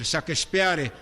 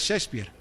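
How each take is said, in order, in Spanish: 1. El nombre se lee con sonidos al estilo español. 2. El nombre se dice con sonidos al estilo inglés. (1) "algunos dicen así" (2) "pero es Shakespeare"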